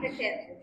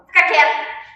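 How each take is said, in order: First: It is said softly and gently. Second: It is said sternly, like a scolding mother.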